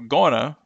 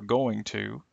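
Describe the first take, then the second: First: The words are blended into one short reduced form. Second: Every sound of both words is said in full. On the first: "Extreme reductions" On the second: "their original forms"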